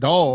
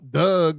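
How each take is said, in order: First: It is said with a standard accent. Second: It is said with a Baltimore accent.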